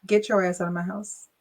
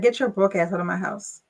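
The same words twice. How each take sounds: First: Sarcastically polite eviction; mock respectful. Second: Blunt, flat kick-out; mock-harsh eviction; blunt dismissal. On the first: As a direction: fake politeness on the kick-out. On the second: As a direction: throw him out without ceremony.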